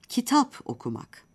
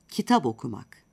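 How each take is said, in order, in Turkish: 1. P, sonraki ünlüden önce sert kalır. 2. P, ünlüye bağlanınca b'ye yumuşar.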